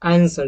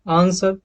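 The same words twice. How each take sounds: First: It is said in an American accent. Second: It is said in a British accent. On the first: "अगर आप American accent में इसको pronounce करेंगे तो आंसर" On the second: "अगर आप इसको ब्रिटिश एक्सेंट में इसको करेंगे तो आंसर"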